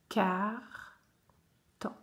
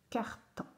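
First: Carton split as "car - ton"; syllable by syllable. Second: Said in the usual way. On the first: Shown as a demonstration. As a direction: leave a clear pause inside Carton. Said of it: "faire les syllabes". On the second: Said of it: "coller les syllabes".

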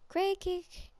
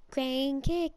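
First: Crane kick squeaked high in a silly put-on voice. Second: Said in the usual way. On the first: Gamer repeating the move name in a high silly voice. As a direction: pitch crane kick way up like a cartoon.

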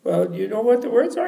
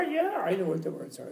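First: High questioning voice, rising end; cleaning lady. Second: Lightly voiced scholar, softer reply; scholar's answer. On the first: Acted. Cleaning lady tests the scholar, high rising question. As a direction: probe him as the cleaning lady. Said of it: "She said, uh". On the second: Scholar answers the cleaning lady's test, lightly acted reply. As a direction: answer her as the scholar, softer and slightly high.

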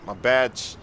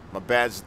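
Both takes have the same delivery.

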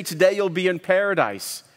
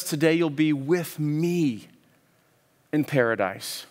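First: Said in the usual way. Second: Slow, leaning on "with me" and settling onto "paradise"; stress on with me. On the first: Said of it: "Jesus doesn't just say". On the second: Shown as a demonstration. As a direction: land the weight on "with me", not "paradise". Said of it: "Jesus says".

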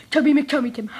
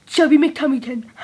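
First: Giggling through the name, fast; rattled off through laughter; laughing. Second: Said in the usual way. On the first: Shown as a demonstration. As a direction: laugh while saying it quickly.

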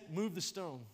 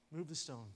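First: Said in the usual way. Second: Quieter, settling command; softer repeat. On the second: Retold or imitated. Jesus repeating the order to the crowd, quieter and calm. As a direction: repeat it more softly, with calm authority. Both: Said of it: "And he said".

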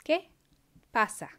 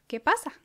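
First: Each word said apart, slowly; teacher modelling word by word; slowed, split in two. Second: Lively higher question. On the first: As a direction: pause between the words. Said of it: "then I'll say it slower". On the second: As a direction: ask it brightly. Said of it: "say the words". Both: Shown as a demonstration.

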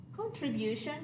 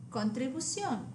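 First: Contribution ending in BYOO-shun; English contribution, stress on BU; English pronunciation. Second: Contribución ending in boo-SYON; Spanish contribución, stress on the final o; Spanish pronunciation. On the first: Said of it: "the English word". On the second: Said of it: "accent on the O". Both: Shown as a demonstration.

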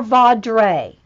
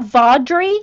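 First: Vaudrey ending in -ray, slow and falling; alternative pronunciation. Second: Vaudrey ending in -ree, rising as a question; pronunciation option. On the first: Host asking the author which is right, offering vawd-RAY. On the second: Host asking the author which is right, offering VAWD-ree. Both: Real, not acted. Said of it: "getting all the pronunciations right".

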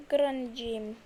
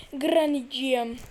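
First: Said in the usual way. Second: Louder sing-song call of Granny'ciğim; louder coaxing call. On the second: Pretend. Gamer calling to Granny, louder coaxing call.

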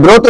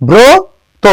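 First: ব্রত said "brawto", open vowel; wrong pronunciation demo. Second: ব্রত high and stretched, "bro... to"; correct pronunciation demo. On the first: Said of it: "এটা ব্রত না". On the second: Teacher correcting what many say, ব্রত with long "o". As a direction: draw out ব্রত with a closed "o", pitched up. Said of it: "এটা হচ্ছে ব্রত". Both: Shown as a demonstration.

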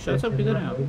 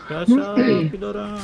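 First: Said in the usual way. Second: Calling out. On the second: Real, not acted. Calling louder for the missing teammate.

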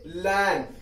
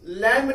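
First: लैम्ब said as "lam", ending on M; silent B. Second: लैम्ब with an audible B at the end; wrong reading, लैम्ब ending in a voiced "mb"; B pronounced. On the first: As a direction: drop the B from लैम्ब, close on M. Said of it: "इसको पढ़ेंगे लैम्ब". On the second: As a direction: sound out the final B in लैम्ब. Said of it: "लैम्ब नहीं पढ़ेंगे". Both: Shown as a demonstration.

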